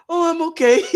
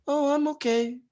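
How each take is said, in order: First: Laughing through a mock deflated reply. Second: Soft, deflated mumble, barely audible; voice gone low. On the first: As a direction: poke fun at the meek answer. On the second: Retold or imitated. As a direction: shrink away as you say it. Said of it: "Our voice gets low".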